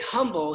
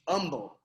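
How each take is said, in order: First: The word starts with an h sound. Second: The word starts without an h sound. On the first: This is the word that was intended. "he meant humble" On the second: This is how the friend actually said it. "He just didn't, you know, pronounce the H"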